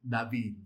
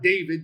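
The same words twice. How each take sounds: First: The name has the Hebrew pronunciation. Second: The name has the English pronunciation. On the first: The speaker calls it right. "The Hebrew is not David. It's David" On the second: The speaker calls it wrong. "It's it's not David. David is the English transliteration of it"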